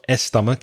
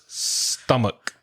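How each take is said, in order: First: An extra 'e' vowel is added before the word. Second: The word begins directly with the 's' sound. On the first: The speaker calls it wrong. "It's not estomach" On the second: The speaker calls it right. "it's stomach"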